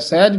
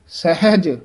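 First: The h sound is faint and weak. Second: The h sound is clear and full. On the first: The speaker calls it wrong. "ਹਾਹਾ ਜਿਹੜਾ ਹੈ ਉਹ ਫਿੱਕਾ ਜਿਹਾ ਪੈ ਜਾਂਦਾ" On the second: The speaker calls it right. "ਹਾਹਾ ਜਿਹੜਾ ਹੈ ਉਹ ਉਚਾਰਨ ਸਹੀ ਕਰਨਾ"

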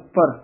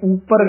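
First: The first vowel is a long oo. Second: The first vowel is a short u. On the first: The speaker calls it right. "ਦਲੈਂਕੜ ਲਾ ਕੇ ਸ਼ੁੱਧ ਬੋਲਣਾ" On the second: The speaker calls it wrong. "ਬਹੁਤੇ ਜਿਹੜੇ ਨੇ ਉੱਪਰ ਕਹਿ ਦਿੰਦੇ ਹਨ"

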